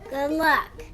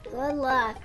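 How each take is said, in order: First: It is said with heartfelt feeling. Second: It is said flatly, without feeling.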